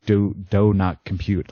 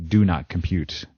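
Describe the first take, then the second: First: "do" said as "doh", run into "not compute"; words pushed together. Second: Said in the usual way. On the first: Retold or imitated. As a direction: slur "do not" toward "don't not", with an oh vowel in "do". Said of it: "pushing the words together".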